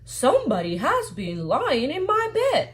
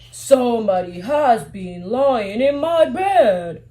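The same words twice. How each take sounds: First: It is said in a medium-sized voice. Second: It is said in a big, deep voice.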